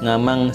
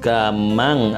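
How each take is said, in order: First: The word begins with an ng sound. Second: The word begins with a hard g sound. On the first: The speaker calls it wrong. "bukan nga. Jadi bukan ngaman, ngamang" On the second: The speaker calls it right. "tapi gamang atau gaman"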